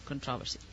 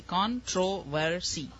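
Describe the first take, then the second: First: "Controversy" dropped low and soft as kun-TROV-uh-see; quiet aside, "Controversy" as kun-TROV-uh-see; stress on second syllable. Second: "Controversy" slowly as KON-tro-ver-see; slow teaching "Controversy" with a full middle O; syllable by syllable. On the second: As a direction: break "Controversy" into four clear beats. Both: Shown as a demonstration. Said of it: "controversy about how it's meant to be pronounced".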